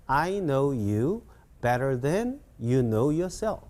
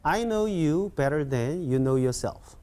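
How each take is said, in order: First: Slow, drawn-out English phrases with a pause; measured teacher's read-along pace; slower model sentence. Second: Slightly quicker, joined-up model sentence; whole sentence in one connected go; a bit faster. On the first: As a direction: say it slowly in separate chunks. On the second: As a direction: run the phrases together a little faster. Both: Shown as a demonstration. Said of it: "좀 빨리 시작".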